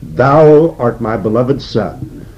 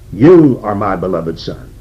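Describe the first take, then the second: First: Slow, solemn King James reading of "Thou art my beloved Son"; solemn scripture quote. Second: Said in the usual way. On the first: Acted. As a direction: read "Thou art" slowly, as the voice from heaven. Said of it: "from heaven comes a voice, saying".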